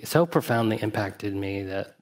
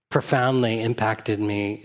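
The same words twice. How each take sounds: First: "so" lifted and pushed ahead of the phrase; stress on so. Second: "profoundly" drawn out and leaned on, slowly; slow stress on profoundly. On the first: A teacher restating, now stressing "so". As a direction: hit "so" hardest, the rest even. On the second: A teacher recalling a childhood lesson, stressing "profoundly" slowly. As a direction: let "profoundly" land, slow and weighty. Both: Shown as a demonstration.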